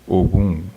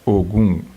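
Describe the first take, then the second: No difference in how they are said.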